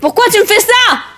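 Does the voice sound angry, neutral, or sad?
angry. The voice builds louder in a crescendo. "un personnage énervé, votre voix devra monter en crescendo"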